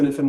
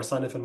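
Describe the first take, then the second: First: Sinafin begun with a short "sin"; unsure pronunciation. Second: Sinafin begun like the word "sign"; alternative mispronunciation. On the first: Consultant guessing a model's name for a colleague, unsure pronunciation. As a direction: say Sinafin as spelt, as a first guess. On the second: Consultant offering another guess at the model's name, alternative mispronunciation. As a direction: try Sinafin as "SIGN-a-fin", a second guess. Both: Real, not acted. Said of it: "I'm pronouncing that probably wrong".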